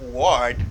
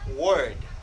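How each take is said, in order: First: The vowel sounds like 'or' in 'for'. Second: The vowel sounds like 'er' in 'bird'. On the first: The speaker calls it wrong. "Do not say word" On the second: The speaker calls it right. "say word. As in bird"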